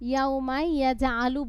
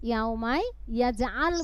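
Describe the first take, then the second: First: The last word ends with a vowel. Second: The last word ends on a consonant. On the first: The speaker calls it wrong. "বললে হবে?" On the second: The speaker calls it right. "বলতে হবে। এখানে আমরা জজম বা সাকিন করে দেই।"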